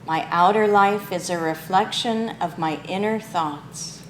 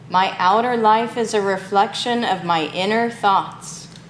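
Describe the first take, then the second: First: It is spoken in an ordinary speaking voice. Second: It is spoken in a strong, loud voice. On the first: "in a regular speaking voice" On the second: "in a strong voice"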